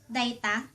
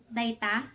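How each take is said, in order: Both takes have the same delivery.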